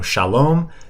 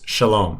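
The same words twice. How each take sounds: First: The vowels are full and long. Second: The vowels are shortened and quicker.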